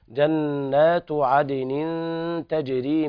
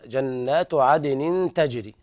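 First: The recitation continues without stopping after tajri. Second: The recitation stops right after tajri. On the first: The rivers are what flow. The speaker calls it right. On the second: The gardens themselves flow. The speaker calls it wrong.

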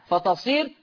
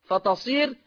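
Both takes have the same delivery.

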